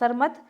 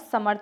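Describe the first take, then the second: First: The r sound comes after the sa. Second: The r sound comes after the ma. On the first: The speaker calls it wrong. "सरमथ नहीं होता है" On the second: The speaker calls it right. "कैसा होगा समर्थ होता है"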